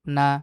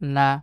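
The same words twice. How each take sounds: No difference in how they are said.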